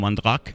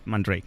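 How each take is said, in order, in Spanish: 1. El nombre se pronuncia a la manera francesa. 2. El nombre se pronuncia a la manera inglesa. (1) "en francés sería posiblemente algo como Mandrake" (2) "la pronunciación inglesa más extendida, Mandrake"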